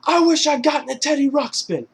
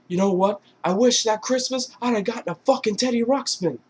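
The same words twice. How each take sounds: First: High, loud, emphatic yell; louder mock defiance. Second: High-pitched indignant retort; mock outburst. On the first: Mark Wahlberg's character defying Ted's dare, loud mock yell. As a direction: throw it back louder and much higher. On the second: Mark Wahlberg's character lashing out at Ted, mock outburst. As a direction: spit out the complaint in a raised, higher voice. Acted angry wish at Ted.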